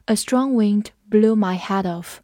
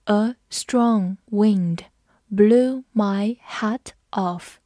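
First: Said in the usual way. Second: Very slow, careful classroom read-aloud; teacher modelling the sentence slowly. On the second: Shown as a demonstration. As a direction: drag each word out for learners. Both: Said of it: "好，我们慢读一遍。".

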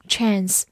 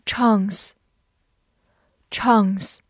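First: Chance with the American flat "a" of "cat"; American pronunciation. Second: Chance with a long broad "ah", as in British English; non-American pronunciation. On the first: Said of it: "美式发音chance也是可以的". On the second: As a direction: draw out "chance" slowly as "chahnce". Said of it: "或者美式发音chance也是可以的". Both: Shown as a demonstration.

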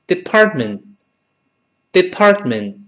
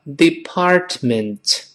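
First: Department with unheard middle and final T; dropped Ts. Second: Department slowly, 'dee-part-ment' with both Ts; careful full form. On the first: Teacher shows real-life speech, reduced department. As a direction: say department as 'di-par-men'. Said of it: "都听不到了". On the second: Teacher spells out the slow form, careful department. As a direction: say every syllable of department fully. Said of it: "读快了之后". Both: Shown as a demonstration.

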